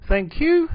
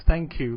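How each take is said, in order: First: "Thank you" with the pitch swooping up high on "you"; rising intonation. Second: Said in the usual way. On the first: Shown as a demonstration. Teacher demos the London shop "Thank you" with a high final rise. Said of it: "hear the final rising intonation of". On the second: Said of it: "final rising intonation of".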